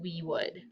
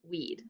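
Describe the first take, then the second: First: 'Would' is said as a full separate word. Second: 'Would' is shortened to a 'd' sound. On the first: "We're talking about we would" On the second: "if you said weed, you're correct"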